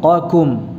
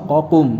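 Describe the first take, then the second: First: A heavy q is followed by a light k. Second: Both consonants are said as heavy q. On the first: The speaker calls it right. "Qafnya tebal, kafnya tipis" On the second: The speaker calls it wrong. "jangan dibaca qaf semua"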